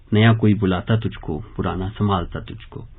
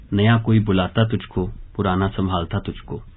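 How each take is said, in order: Both takes have the same delivery.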